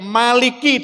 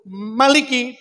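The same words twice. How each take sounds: First: The first vowel is drawn out long. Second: The first vowel is kept short. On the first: It follows one group of reciters. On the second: It follows another group of reciters.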